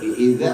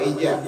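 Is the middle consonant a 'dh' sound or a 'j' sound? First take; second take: dh; j. First: The middle consonant is a 'dh' sound. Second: The middle consonant is a 'j' sound. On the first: The speaker calls it right. "Gigit ujung lidahnya" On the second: The speaker calls it wrong. "Idza apa ija?"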